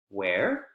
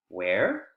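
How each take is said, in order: Both takes have the same delivery.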